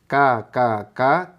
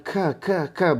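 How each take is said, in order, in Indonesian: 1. Bunyi k-nya tegas, hanya dengan sedikit udara. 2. Bunyi k-nya mengeluarkan hembusan udara yang kuat. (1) "Tapi ka biasa" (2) "jangan sampai hamesnya itu mendominasi sehingga bunyinya ka ka ka, bukan gitu"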